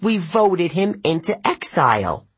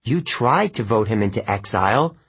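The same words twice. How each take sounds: First: High pompous satyr, "voted" said flatly as fact; satyr's claim. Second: "tried" stressed with a rise, plain voice. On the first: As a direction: state "voted" as settled fact. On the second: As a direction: correct him by leaning on "tried". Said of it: "I corrected". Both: A narrator's reading.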